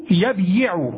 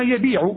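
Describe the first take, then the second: First: يبيع said as yabyiʿu, the ya carrying its own i; original underlying form. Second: Said in the usual way. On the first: Shown as a demonstration. Teacher showing the class the original form of يبيع, sounded out. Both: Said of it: "أصله".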